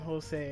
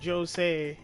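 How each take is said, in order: First: The name begins with an H sound. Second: The name begins with a J sound. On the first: This is how the name is normally said. The speaker calls it right. "rather than Jose" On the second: This is how the characters say the name. The speaker calls it wrong. "they say Jose"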